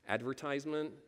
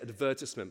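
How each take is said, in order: First: It is said in an American pronunciation. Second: It is said in a British pronunciation. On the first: This is how the local audience says it. "but you say advertisement" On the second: This is how the speaker normally says it. "I say advertisement"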